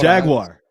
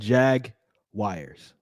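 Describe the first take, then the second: First: The ending is a short 'gwar' sound. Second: The ending sounds like the word 'wires'. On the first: The speaker calls it right. "that's how you say it" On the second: The speaker calls it wrong. "You said Jag wires, like W I R E S"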